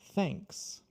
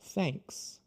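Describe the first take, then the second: First: The tongue pulls back, ending in clear s. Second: The tongue pulls back, ending in clear s.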